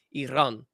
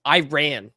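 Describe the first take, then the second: First: "Iran" as ee-RAHN with the R rolled. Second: "Iran" as eye-RAN, drawn out; American pronunciation. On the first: Streamer showing the correct way, "Iran" with rolled R. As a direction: roll the R in "Iran". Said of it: "the rolled R in there". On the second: Streamer enjoying the funny American way, "Iran" as eye-RAN. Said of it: "say it in American". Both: Shown as a demonstration.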